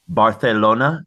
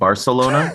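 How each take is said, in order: First: It is pronounced in a fancy, foreign-sounding way. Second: It is pronounced in a plain, ordinary way. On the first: The speaker is showing off sophistication. "feels more fancy" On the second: The speaker is keeping it simple. "instead of"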